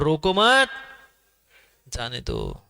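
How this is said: There is a pause after the second word.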